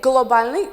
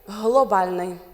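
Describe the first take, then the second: First: The word begins with a hard g sound. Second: The word begins with a breathy h-like sound. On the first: The speaker calls it wrong. "we do not say globalny" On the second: The speaker calls it right. "we say globalny"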